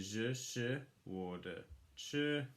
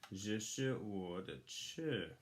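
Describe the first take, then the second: First: It is said slowly, syllable by syllable. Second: It is said at normal speed.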